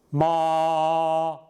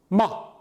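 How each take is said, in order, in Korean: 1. 처음부터 끝까지 높고 평평하게 유지돼요. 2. 음절이 짧고 갑자기 끊겨요. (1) "처음부터 끝까지 나긋하게 소리가 좀 높게 갔습니다" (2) "입을 다문다는 형태"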